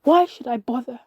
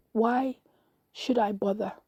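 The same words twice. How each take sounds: First: Loud, despairing outburst; raised voice, exasperated; shouting. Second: Resigned, at an ordinary level, pause after why; understated hopeless question; dejected sigh. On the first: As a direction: shout it at your own reflection. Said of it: "and I shouted". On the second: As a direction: give up as you ask it. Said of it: "and I sighed". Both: A narrator's reading.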